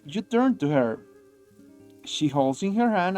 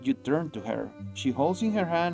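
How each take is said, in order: First: There is a long pause between the sentences. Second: There is a short pause between the sentences. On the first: The speaker calls it wrong. "he makes like the longest pauses between between uh, sentences" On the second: The speaker calls it right. "It should be like"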